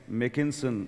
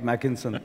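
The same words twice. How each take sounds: First: The first vowel sounds like the one in 'make'. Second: The first vowel differs from the one in 'make'. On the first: The speaker calls it right. "as in make, as in bake" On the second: The speaker calls it wrong. "not Mackinson"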